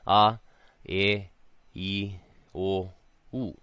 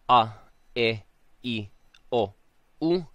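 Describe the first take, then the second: First: Each vowel starts softly, sliding in gently. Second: Each vowel starts sharply, with an abrupt onset. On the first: The speaker calls it right. "it's not a sharp one, it's a soft one" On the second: The speaker calls it wrong. "notice I'm not saying"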